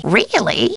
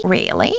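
First: Lifted, lively question; animated take. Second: Low-pitched, falling question; subdued take. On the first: Housekeeper reacting to news, animated. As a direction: raise the pitch with interest. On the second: Housekeeper reacting to news, subdued. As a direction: drop it low and let it fall. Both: Acted. Alternate takes of stock line.

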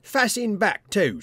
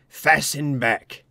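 First: "Fasten" lifted high and hit; "Fasten" pitched up and stressed, a bit slower. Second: "Fasten back" drawn out very slowly and louder; "Fasten back" slow and heavy; slow ominous stress. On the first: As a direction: punch "Fasten back" with a rising voice. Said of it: "continued Robert triumphantly". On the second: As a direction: drag "Fasten back" out like a warning. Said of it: "That's the awful thing". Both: A narrator's reading.

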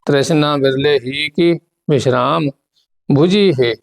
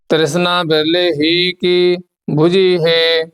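First: ਬੁਝੀ said light and short after a break; name the pause, then a soft ਬੁਝੀ. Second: ਬੁਝੀ ਹੈ flowing on in slow recitation; scripture recitation. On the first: Shown as a demonstration. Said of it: "ਇਹਨੂੰ ਪੋਲਾ ਬੋਲਣਾ ਹੈ". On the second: Acted. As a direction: recite it evenly through to a drawn-out ਬੁਝੀ ਹੈ. Recites scripture before explaining.

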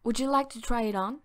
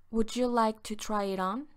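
First: Quick, run-together first read; fast casual question to a customer; brisk model take. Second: Said in the usual way. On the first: Shown as a demonstration. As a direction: rattle it off like a busy clerk. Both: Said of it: "Se dice".

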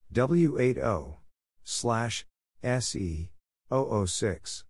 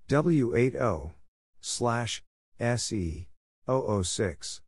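No difference in how they are said.

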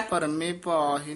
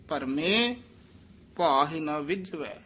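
First: ਭਰਮੇ ਭਾਹਿ run together; no pause. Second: ਭਰਮੇ rising, then a clear halt; pause after ਭਰਮੇ. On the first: Teacher showing the mistake, ਭਰਮੇ ਭਾਹਿ run together. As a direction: join ਭਰਮੇ straight onto ਭਾਹਿ without a break. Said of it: "ਨਹੀਂ ਕਹਿਣਾ". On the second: Teacher showing correct phrasing, pause after ਭਰਮੇ. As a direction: stop after ਭਰਮੇ before ਭਾਹਿ. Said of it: "ਭਰਮੇ ਪਦ ਤੇ ਯਮਕ ਲਾ ਦੇਣੀ". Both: Shown as a demonstration.

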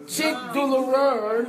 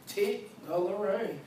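First: "Tic douloureux" in French, teek doo-loo-REUH. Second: "tic douloureux" said as tik-DOH-luh-ray, English-style. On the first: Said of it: "how you say tic douloureux in French?". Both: Shown as a demonstration.

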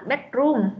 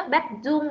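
First: "bedroom" with an English R in place of z; corrected R. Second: "bedroom" said with z, like "bedzoom"; warning demo of "bedroom" as "bedzoom"; wrong R. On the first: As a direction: say "bedroom" with the tongue curled for R. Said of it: "Đừng có đọc là room nhá". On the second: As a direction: swap the R in "bedroom" for a z. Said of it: "Bedroom là không phải nhá". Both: Shown as a demonstration.

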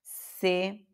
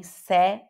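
First: "se" with a narrow e, like "sê"; closed-vowel "se". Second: "se" with a wide open e, like "sé"; wrong open-vowel "se"; open e, mistaken. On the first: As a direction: say "se" with the e of "você". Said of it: "é fechado". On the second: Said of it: "nem se". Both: Shown as a demonstration.

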